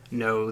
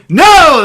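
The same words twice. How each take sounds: First: Said in the usual way. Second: Sudden loud shout, much higher. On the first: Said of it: "Or I should say". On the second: Acted. Driver refusing to stop for Balak, loud shout. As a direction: bellow NO at full volume. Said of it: "the driver shouted back".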